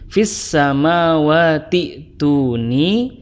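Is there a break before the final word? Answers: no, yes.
no. The words run together without any break. "kalau diwasol dibacanya"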